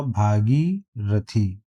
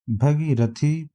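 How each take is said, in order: First: भागीरथी drawn out with long first vowel, bhaa-gee-ra-thee; भागीरथी in slow separated parts, long bhaa; correct pronunciation. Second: भगीरथी with short first vowel, bha-gee-ra-thee; भगीरथी read as a slow option, short bha; wrong option. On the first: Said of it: "सही उच्चारण इसका". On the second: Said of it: "सही उच्चारण इसका भागीरथी". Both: Shown as a demonstration.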